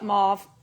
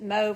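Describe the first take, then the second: First: The word is pronounced the local, non-British way. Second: The word is pronounced the British way. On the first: This is how people where the speaker lives now say it. "some people here call it mauve" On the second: This is how people in the UK say it. "Everybody there calls it mauve, and I still do"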